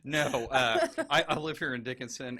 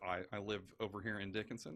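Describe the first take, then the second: First: Louder, eager candidate on the doorstep; canvassing voice. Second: Said in the usual way. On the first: Pretend. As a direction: pitch yourself to a neighbor. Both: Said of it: "This is my door-to-door canvassing voice".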